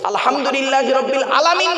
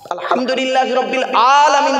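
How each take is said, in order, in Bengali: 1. 'alamin'-এর প্রথম স্বর ছোট। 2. 'alamin'-এর প্রথম স্বর লম্বা। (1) "নয়" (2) "আতে টান দিতে হবে"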